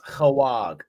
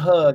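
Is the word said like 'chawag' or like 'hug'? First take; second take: chawag; hug. First: It is said as a longer word, chawag. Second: It is said as a short word, hug. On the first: The speaker calls it right. "it's chawag" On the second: The speaker calls it wrong. "It's not hug"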